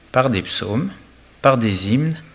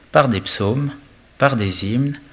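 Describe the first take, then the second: Both takes have the same delivery.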